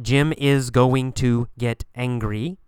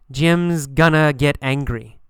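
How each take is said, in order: First: It is said in full as is going to. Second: It is reduced to Jim's gonna. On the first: The speaker calls it wrong. "Not Jim is going to get angry" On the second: The speaker calls it right.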